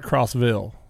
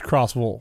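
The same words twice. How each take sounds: First: The ending is said the northern way. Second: The ending is said the southern way. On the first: The speaker calls it wrong. "it's not Crossville" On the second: The speaker calls it right. "they don't pronounce the Vills like we do up here"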